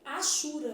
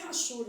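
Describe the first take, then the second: First: The word starts directly with the vowel sound. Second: The word starts with a rough R-like sound. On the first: The speaker calls it right. "é achura mesmo" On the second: The speaker calls it wrong. "aí o povo fala rachura, mas não é rachura"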